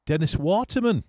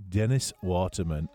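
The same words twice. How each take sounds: First: Announced high and loud like a quiz answer; triumphant reveal. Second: Said in the usual way. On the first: Acted. DJ revealing the quiz answer to listeners, triumphant. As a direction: call out the answer with a flourish.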